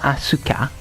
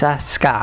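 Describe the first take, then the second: First: The u after the s is clearly sounded. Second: The u after the s is silent. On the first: The speaker calls it wrong. "It's not Asuka" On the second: The speaker calls it right. "you don't pronounce the U"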